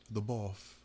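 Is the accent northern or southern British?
southern. It is said in a posh southern British accent.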